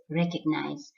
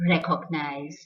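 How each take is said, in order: First: Recognize with a reduced middle vowel; correct pronunciation. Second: Recognize with a full 'cog' in the middle; wrong pronunciation. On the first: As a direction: say recognize as REK-uhg-nize. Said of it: "the correct pronunciation is recognize". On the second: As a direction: say recognize as REK-OG-nize, rounded O. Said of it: "is not". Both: Shown as a demonstration.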